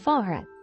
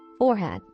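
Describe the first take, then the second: First: The first syllable sounds like 'far'. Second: The first syllable sounds like 'for'. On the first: "which has the lower vowel of" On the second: "R is the chord of the first syllable, and this is not lower to R"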